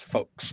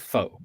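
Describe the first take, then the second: First: The name ends in a ks sound. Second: The name ends in a vowel sound. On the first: The speaker calls it right. "it's pronounced folks" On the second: The speaker calls it wrong. "it's not pronounced faux"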